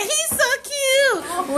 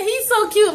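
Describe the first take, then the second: First: High, slow, swooning imitation of her; mocking girly voice. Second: Said in the usual way. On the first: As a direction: drag out the gushing like a smitten girl. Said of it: "She said". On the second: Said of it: "she said".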